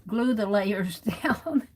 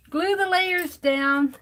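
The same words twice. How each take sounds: First: Laughing mid-line. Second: Much higher, louder and slow, every word hit; emphatic repeat. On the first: Real, not acted. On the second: Shown as a demonstration. Crafter warning viewers about the foil, loud slow emphasis. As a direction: Glue the layers down, drilled home word by word. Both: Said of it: "So this is a lesson".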